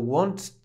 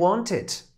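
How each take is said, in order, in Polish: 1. Końcówka jest wymawiana bez żadnej samogłoski przed d. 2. Końcówka ma krótką samogłoskę przed d. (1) "jeżeli byśmy tylko pominęli to e" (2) "to jest bardziej y"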